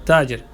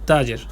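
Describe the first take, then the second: The two takes are said the same way.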